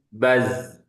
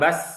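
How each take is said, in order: First: The final consonant is a buzzing z sound. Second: The final consonant is a hissing s sound. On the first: The speaker calls it right. "tapi baz" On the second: The speaker calls it wrong. "bukan bas"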